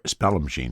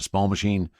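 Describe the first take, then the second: First: The name begins with a sound like 'spell'. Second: The name begins with a sound like 'small'. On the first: The speaker calls it right. "I guess is how it actually" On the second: The speaker calls it wrong. "I've been pronouncing that wrong all the time"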